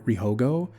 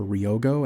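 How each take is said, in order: First: The name is said with an added h sound. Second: The name is said without an h sound. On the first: The speaker calls it wrong. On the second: The speaker calls it right.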